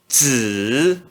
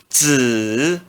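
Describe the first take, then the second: First: The pitch dips low then rises. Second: The same.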